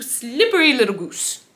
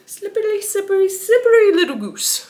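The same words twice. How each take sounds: First: Said in the usual way. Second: Much higher, silly teasing repeat; playful high voice. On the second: Acted. Repeating the hero's taunt for fun, playful high voice. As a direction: pitch it up high and tease.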